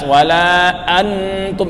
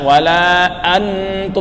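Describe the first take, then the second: First: The n is fully pronounced as a clear n. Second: The n is fully pronounced as a clear n.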